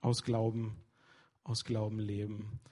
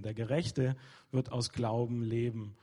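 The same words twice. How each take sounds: First: "aus Glauben" langsam und betont; langsam, jedes Wort von "aus Glauben" setzen; stress on aus Glauben. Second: "leben" am Satzende betont; stress on leben. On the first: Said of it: "die Betonung ist hier eben auf". (betont "aus Glauben leben", ruhig und langsam) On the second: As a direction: das Wort "leben" hervorheben. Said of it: "Betonung ist ja wirklich auf Leben". (Betonung auf "leben") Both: Shown as a demonstration.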